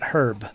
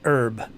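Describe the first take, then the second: First: The word is said with a non-American pronunciation. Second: The word is said with an American pronunciation. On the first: The speaker calls it wrong. "not herb" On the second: The speaker calls it right. "I said herb, This is America. We say herb"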